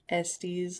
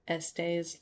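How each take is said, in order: First: The ending rhymes with testes. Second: The ending rhymes with essays. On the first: "like testes" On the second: "like essays"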